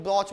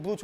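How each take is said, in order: First: ब्रॉच with an open "aw" vowel; ब्रॉच as "brawch"; variant pronunciation. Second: ब्रूच with a long "oo" vowel; ब्रूच, rounded "oo" in the middle; variant pronunciation. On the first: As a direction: say ब्रॉच to rhyme with "watch", vowel rounded. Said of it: "कुछ लोग ब्रॉच बोलते हैं". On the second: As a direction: say ब्रूच as "brooch" rhyming with "pooch". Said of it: "कुछ लोग ब्रूच बोलते हैं". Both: Shown as a demonstration.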